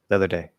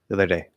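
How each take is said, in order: No difference in how they are said.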